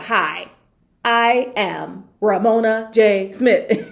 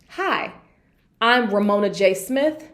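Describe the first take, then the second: First: It is dragged out extremely slowly. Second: It is slightly slowed with small pauses. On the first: The speaker treats listeners as unintelligent. The speaker calls it wrong. "It wasn't like" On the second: The speaker is being clear for listeners. The speaker calls it right. "slow it down and say it something like this"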